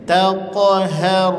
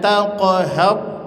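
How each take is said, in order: First: The final ra is said lightly without pressure. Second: The final ra is pressed hard. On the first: The speaker calls it right. "cukup aja" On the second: The speaker calls it wrong. "tak perlu ditekan, jangan"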